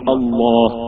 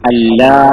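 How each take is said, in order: First: The L is heavy and full. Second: The L is light and thin. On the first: "അതിനെ തസ്ലീമാക്കുമ്പോ" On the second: "വെറും അല്ല എന്ന് നമ്മൾ പറഞ്ഞ അവസ്ഥ"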